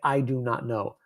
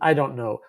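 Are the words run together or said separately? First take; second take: separately; run together. First: Each word is said separately and fully. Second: The words are pushed together into one unit. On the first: The speaker calls it wrong. "we do not say" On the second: The speaker calls it right. "We push it together into"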